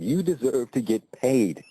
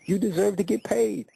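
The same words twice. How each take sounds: First: Said in the usual way. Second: You deserve to get paid pitched much higher, pleading; insistent repeat. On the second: Retold or imitated. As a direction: lift the whole repeat up high to press her point.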